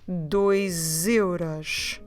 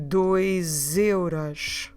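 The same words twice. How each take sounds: Both takes have the same delivery.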